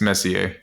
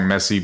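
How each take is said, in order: First: The name is said as Messier. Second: The name is said as Messi. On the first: The speaker calls it right. "but it's Messier" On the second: The speaker calls it wrong. "he pronounced it on the song Messi"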